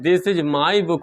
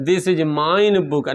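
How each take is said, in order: First: Said in the usual way. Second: Very slow, word-by-word wrong sentence "this is mine book"; teacher slowly reads out the wrong form "this is mine book"; wrong example, slowly. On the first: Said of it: "हो सकता है". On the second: Shown as a demonstration. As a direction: spell out the mistake "this is mine book" slowly, as a teacher showing an error. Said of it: "ना, गलत है".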